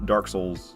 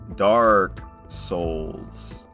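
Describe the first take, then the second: First: The two words run together without a pause. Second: There is a pause between the two words. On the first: The speaker calls it wrong. "If you don't pause properly, it kind of comes off" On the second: The speaker calls it right. "emphasize the A's and the O's"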